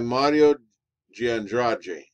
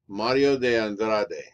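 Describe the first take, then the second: First: The name is said with a Rio de Janeiro accent. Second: The name is said without a Rio de Janeiro accent. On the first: "I'm pronouncing this Rio de Janeiro style" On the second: "would be another way to pronounce it"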